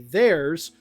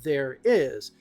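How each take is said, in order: First: It is said as one contracted word. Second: It is said as two separate words. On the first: The speaker calls it right. "I'm contracting their and is to make theirs" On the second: The speaker calls it wrong. "If I didn't contract those and I separated there is"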